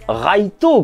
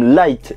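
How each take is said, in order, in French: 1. Il est prononcé avec une prononciation japonaise. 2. Il est prononcé avec une prononciation anglaise.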